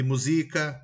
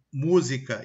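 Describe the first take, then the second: First: "musica" stressed on SI; "musica" with the beat in the middle; penultimate stress. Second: "música" stressed on MÚ; "música" with the beat up front; antepenultimate stress. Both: Shown as a demonstration. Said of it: "Com a palavra acentuada ou não".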